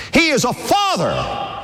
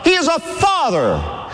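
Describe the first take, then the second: First: Slow, proclaimed with force; preached emphasis. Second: Higher, slow, shouted proclamation; stronger preached repeat. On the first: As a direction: drive it home to the congregation. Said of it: "preacher repeats line". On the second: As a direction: lift it even higher to the crowd. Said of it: "repeat, higher and stronger". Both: Real, not acted.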